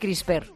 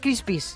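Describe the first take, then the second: First: The word ends with a 'pr' sound. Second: The word ends with a 'pis' sound. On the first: "A mí me sale decir CRISPR" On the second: "También me sale decir CRISPIS, que eso no sería"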